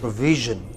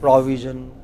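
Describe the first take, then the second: First: The stress is on the second syllable. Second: The stress is on the first syllable. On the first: The speaker calls it right. "The second syllable" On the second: The speaker calls it wrong. "They said pro. They took it to the initial syllable"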